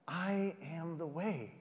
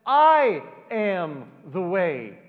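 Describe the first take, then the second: First: Softer, slow, every word weighed; quiet and slow. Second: Much louder, slow, each word hammered home; proclaiming. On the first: Shown as a demonstration. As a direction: say it softly, letting it puzzle. Repeats the words quietly. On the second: Acted. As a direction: declare it with full force. Climax, Jesus simply says.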